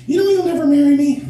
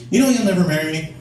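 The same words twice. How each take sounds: First: Put-on very high-pitched girlfriend voice; higher voice. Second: Put-on moderately high girlfriend voice; higher voice. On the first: Girlfriend in the car about marriage, very high voice. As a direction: squeak it out as the girlfriend. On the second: Girlfriend repeats marriage complaint in car, raised voice. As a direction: pitch up lightly as the girlfriend. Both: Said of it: "she's a higher voice in the car".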